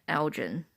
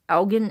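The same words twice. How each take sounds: First: ELGIN with g as in gem; soft-g ELGIN. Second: ELGIN with g as in get; hard-g ELGIN. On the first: Woman telling what Google understood, ELGIN with a j sound. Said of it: "They knew that I meant Elgin". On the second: Woman retelling her Google search, hard-g ELGIN. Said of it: "when I pronounced Elgin into Google". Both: Shown as a demonstration.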